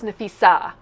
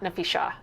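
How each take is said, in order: First: The middle consonant is a plain 's' sound. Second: The middle consonant is an 'sh' sound. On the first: The speaker calls it right. "it's Nafisa" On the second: The speaker calls it wrong. "not Nafisha"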